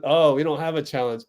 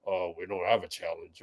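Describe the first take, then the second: First: Said in the usual way. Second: Low, soft mumbled-down impression; imitating a very deep-voiced player; Wiggins's deep voice. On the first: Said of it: "He said". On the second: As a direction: drop into a deep, quiet voice. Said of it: "how deep Wiggins's voice is".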